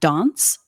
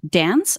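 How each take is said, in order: First: The word is said with a British vowel. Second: The word is said with an American vowel. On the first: "not dance" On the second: "it had to be dance"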